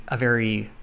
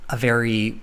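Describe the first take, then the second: No difference in how they are said.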